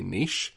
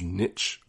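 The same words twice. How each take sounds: First: It sounds like neesh, with a long vowel. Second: It rhymes with itch.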